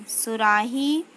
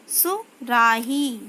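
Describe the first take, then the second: First: Said in the usual way. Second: सुराही stretched slowly, falling; slow syllable-by-syllable reading. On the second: Shown as a demonstration. Teacher slowly sounds out सुराही for pupils. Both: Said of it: "शब्द पढ़ेंगे".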